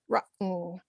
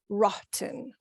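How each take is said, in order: First: The T is cut short before a quick N. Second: The T is fully released before the N. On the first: The speaker calls it right. "we tend to cut that T short and then go straight to a quick N" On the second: The speaker calls it wrong. "rather than"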